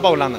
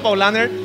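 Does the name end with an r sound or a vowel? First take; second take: vowel; r sound. First: The name ends in a plain vowel sound. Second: The name ends with an audible r sound. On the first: This is the German pronunciation. The speaker calls it right. "acá la vamos a corregir. Una Paulana" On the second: This is the common everyday pronunciation. The speaker calls it wrong. "todo el mundo dice una Paulaner"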